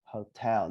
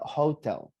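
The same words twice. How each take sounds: First: Hotel with the weight on TEL; American hotel, TEL stressed; stress on second syllable. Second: Hotel with the weight on HO; HO-tel, front syllable stressed; stress on first syllable. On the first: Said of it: "So we say hotel". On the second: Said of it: "I think that's maybe British". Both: Shown as a demonstration.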